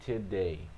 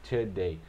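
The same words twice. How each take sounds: Both takes have the same delivery.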